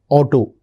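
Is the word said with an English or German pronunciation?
English. It is said with an English pronunciation. "that's how we pronounce it"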